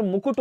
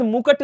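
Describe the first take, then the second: First: मुकुट as "mukut"; correct second vowel. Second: मुकुट as "mukat"; wrong second vowel. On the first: Teacher correcting students, मुकुट as "mukut". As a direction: put u after k in मुकुट. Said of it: "होता है". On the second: Teacher showing students the error, मुकुट as "mukat". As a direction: say मुकुट with a after k. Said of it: "जैसा कोई शब्द नहीं होता". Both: Shown as a demonstration.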